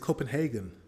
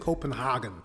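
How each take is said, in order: First: The name is said with an English sound. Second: The name is said with a German-like sound. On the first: The speaker calls it right. "But it's Copenhagen" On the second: The speaker calls it wrong. "he's saying Copenhagen, like a German"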